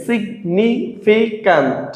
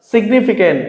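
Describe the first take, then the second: First: "significant" slowly as sig, ni, fi, cant; split into syllables. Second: Said in the usual way. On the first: Shown as a demonstration. Teacher showing four syllables, "significant" slowly split sig, ni, fi, cant. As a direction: pause after each syllable of "significant". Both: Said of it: "তিনের অধিক অংশ থাকে".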